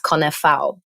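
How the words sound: The name is said with a Polish pronunciation. "but I'm Polish. So technically it's"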